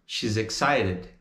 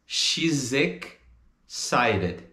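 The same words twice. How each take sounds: First: "She's excited" as one linked word; joined up. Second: "She's ex... cited", very slow with a gap; broken into chunks. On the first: Teacher puts the chunks back together, linked. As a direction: run "She's excited" together, a little lower and quicker. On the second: Teacher breaks down the linking, very slow chunks. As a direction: split "She's excited" after the linked "shizek". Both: Shown as a demonstration.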